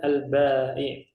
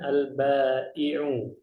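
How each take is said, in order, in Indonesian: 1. Kata ini tidak diakhiri dengan vokal. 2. Kata ini diakhiri dengan vokal u. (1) "kalau mau kita sukunkan" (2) "Kalau kita mau menyempurnakan hurufnya"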